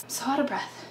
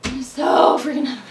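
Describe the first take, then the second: First: Panting, very soft and airy; out of breath. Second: Breathless, leaning on "freaking"; out of breath. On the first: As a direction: gasp it out, barely any voice left. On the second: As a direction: still panting, push "freaking" out harder. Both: Real, not acted.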